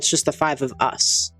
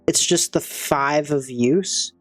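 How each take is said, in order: First: The last word sounds like 'us'. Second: The last word sounds like 'use'. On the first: The speaker calls it right. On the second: The speaker calls it wrong.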